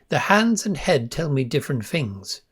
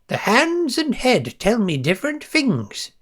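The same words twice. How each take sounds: First: It is said in the speaker's normal voice. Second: It is said in a put-on character voice.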